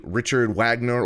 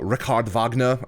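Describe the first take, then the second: First: Wagner is said with an anglicized pronunciation. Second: Wagner is said with a German-style pronunciation. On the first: The speaker calls it wrong. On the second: The speaker calls it right.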